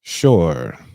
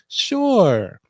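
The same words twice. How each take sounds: First: It is said in a put-on deep voice. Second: It is said in his normal voice.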